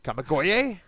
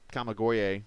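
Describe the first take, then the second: First: The name is said with lively enthusiasm. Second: The name is said flatly, with little energy. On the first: The speaker calls it right. "There you go" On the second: The speaker calls it wrong. "say it with more enthusiasm than that"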